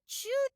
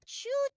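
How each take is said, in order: No difference in how they are said.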